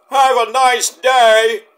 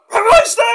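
First: Plain catchphrase. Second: Very high, loud squeaky impression; Mick. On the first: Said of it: "No, I have to say it like Mick". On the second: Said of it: "I have to say it like Mick". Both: Shown as a demonstration.

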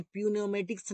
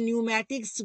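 First: प्यूनेमेटिक्स with a wrongly sounded p; प्यूनेमेटिक्स as p-neumatics, the mistake. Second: न्यूमेटिक्स begun on n, p silent; न्यूमेटिक्स as new-matics. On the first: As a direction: say प्यूनेमेटिक्स starting with p. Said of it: "नहीं बोलते हैं". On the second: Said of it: "ना कि पी बोलते हैं". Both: Shown as a demonstration.

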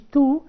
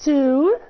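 First: "two" with a plainer, flatter T; the mistaken "two", less drawn out; wrong two. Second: "two" with a strong puffed T, drawn out; loud, careful model "two"; correct two. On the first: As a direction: shorter "two", little puff on the T. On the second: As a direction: hit the T of "two" loudly, long oo. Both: Shown as a demonstration. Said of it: "مش two".

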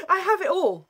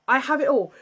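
First: Laughing. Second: Said in the usual way. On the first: Real, not acted.

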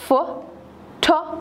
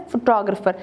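First: Photographer in four slow, separated syllables. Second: Said in the usual way. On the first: Shown as a demonstration. Teacher showing a four syllable word, Photographer said syllable by syllable. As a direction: spell out the sounds of Photographer, syllable after syllable. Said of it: "four syllable word है". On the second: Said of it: "again हमारे पास four syllable word है".

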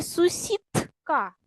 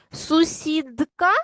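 First: "сусідка" drawn out, voiceless t before k; voiceless consonant. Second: "Сусідка" drawn out, d released with voice; voiced consonant. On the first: Teacher offers pupils the other spelling choice, voiceless consonant. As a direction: say "сусідка" slowly with t in place of d. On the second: Teacher offers pupils the first spelling choice, voiced consonant. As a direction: say "Сусідка" slowly with a clear voiced d before k. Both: Shown as a demonstration. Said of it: "вставивши правильні букви".

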